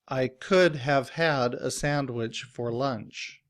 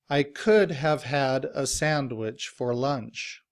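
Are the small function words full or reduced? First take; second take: full; full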